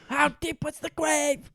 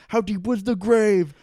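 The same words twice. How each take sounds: First: High, strained mock shout at normal volume; squeezed comic imitation of yelling; mock interrogator echo. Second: Loud, high acted demand; explosive mock-interrogation yell; interrogator's outburst. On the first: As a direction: parody the outburst in a high put-on voice. Co-host echoes the shouted line. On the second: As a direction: build to a shouted interrogation question. Acts interrogator freaking out at climax.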